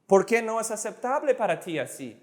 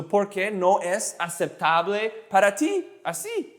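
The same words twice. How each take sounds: First: Quick, run-together sentence, higher; fast demonstration. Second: Slow, word by word for learners; slow demonstration. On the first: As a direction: rattle it off in one go. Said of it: "fast, slow again". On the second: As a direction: pace it out, pausing between phrases. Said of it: "I'll say it slow". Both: Shown as a demonstration.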